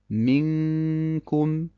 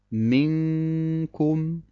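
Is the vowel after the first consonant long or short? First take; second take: short; short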